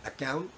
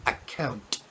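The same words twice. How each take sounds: First: "account" with the final t dropped, ending "accoun"; flat account. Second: "account" with a clear released t at the end; crisp final t. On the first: Teacher demos the wrong "account", final t swallowed. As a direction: say "account" lazily, no t at the end. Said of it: "Instead of saying". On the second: Teacher demos the correct "account" with a crisp final t. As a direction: finish "account" on a sharp t. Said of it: "Do you hear that?". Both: Shown as a demonstration.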